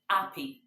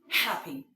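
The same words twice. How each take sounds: First: It starts directly with the vowel, no h. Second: It starts with a breathy h sound. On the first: The speaker calls it wrong. "not happy" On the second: The speaker calls it right. "I am happy"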